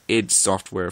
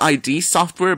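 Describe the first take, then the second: First: The name is said as one short word. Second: The name is spelled out as two letters. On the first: The speaker calls it right. "apparently it's pronounced" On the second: The speaker calls it wrong. "I always called it"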